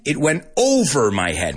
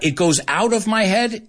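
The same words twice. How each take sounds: First: OVER punched as the correct word; stress on over. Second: Higher-pitched, OUT marked as the mistake; stress on out. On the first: Teacher showing the right preposition, stress on over. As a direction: hit "over" hard, then let "my head" fall. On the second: Teacher correcting a learner's preposition, stress on out. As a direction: quote the wrong version, leaning on "out". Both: Shown as a demonstration. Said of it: "Muy importante que no cambiemos la preposición".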